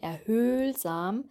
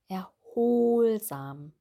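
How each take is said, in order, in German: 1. Der zweite Vokal ist ein vorderes Ö. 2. Der zweite Vokal ist ein hinteres O. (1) "Hier haben wir kein erhöhlsam" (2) "die Zunge ist bei dem O hinten"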